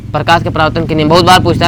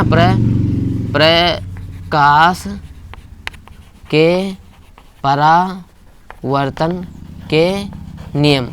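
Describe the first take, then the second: First: Said in the usual way. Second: प्रकाश के परावर्तन के नियम spoken word by word with long gaps; teacher dictating a heading very slowly, softly; slow dictation. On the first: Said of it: "slow dictation follows". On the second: Shown as a demonstration. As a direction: dictate each word slowly so students can write. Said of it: "dictating the rule for notes".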